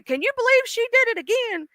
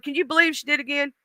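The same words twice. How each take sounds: First: High-pitched, softer mock disbelief; incredulous God. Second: Quick, softer aside in disbelief; incredulous God. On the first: God in conversation with Jesus about her, incredulous. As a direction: ask it way up high, scandalized. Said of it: "this is Jesus and God having a conversation". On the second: Acted. God going to Jesus about her, quick incredulous aside. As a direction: toss it off fast and softer. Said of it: "And God's going".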